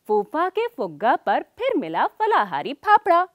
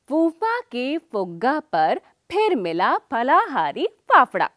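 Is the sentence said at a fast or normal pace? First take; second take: fast; normal. First: The sentence is said quickly. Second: The sentence is said at a normal pace.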